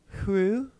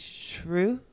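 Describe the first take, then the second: First: It is said with a southern Swedish accent. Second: It is said with a northern Swedish accent. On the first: The speaker is from the south. "in the south is Hru" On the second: The speaker is from the north. "in the north it's Shru"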